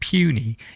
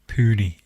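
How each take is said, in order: First: It sounds like the English word puny. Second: It starts with a plain 'poo' sound. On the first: The speaker calls it wrong. "It's not puny. You make him sound tiny" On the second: The speaker calls it right. "Pooney. He's the Pooney"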